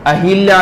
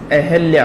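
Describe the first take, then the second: First: "hi" in the middle of अहिल्या; अहिल्या with a clear i after h; wrong i vowel. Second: अहिल्या said as a-hal-yaa, no i; अहिल्या as "ahalya", without the i; correct a vowel. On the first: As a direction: say अहिल्या as a-hil-yaa. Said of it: "अहिल्या नहीं है". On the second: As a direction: say अहिल्या with short a after h. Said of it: "अहिल्या है". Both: Shown as a demonstration.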